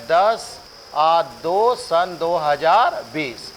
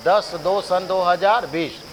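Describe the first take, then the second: First: Slow dictation. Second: Said in the usual way. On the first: Shown as a demonstration. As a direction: say "ये है दस, दो सन दो हज़ार बीस" very slowly, each number spaced out so students can write it. (बहुत धीरे, रटवाने वाले अंदाज़ में) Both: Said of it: "रटवाई पड़ेगा".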